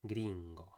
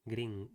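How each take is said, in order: First: "gringo" with a closed Spanish i; tongue back and lips wide on "gringo"; Spanish vowel. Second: "gring-" with an open English i; English vowel. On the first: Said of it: "it should be more like". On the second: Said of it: "using the English E sound". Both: Shown as a demonstration.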